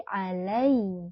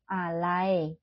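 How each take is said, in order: First: "alai" with a clear, slow "ai"; "alai" with a crisp "ai" ending; correct vowel. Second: "alai" said like Indonesian "alae"; "alai" with a flattened "ae" sound; wrong vowel. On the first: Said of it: "tapi alai". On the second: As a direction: show the sloppy "alai". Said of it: "jangan alai". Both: Shown as a demonstration.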